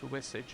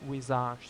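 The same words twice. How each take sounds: First: The word has an ordinary English pronunciation. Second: The word has a foreign, non-English pronunciation. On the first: "it's visage in English" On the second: "visage sounds more more um, more... noble"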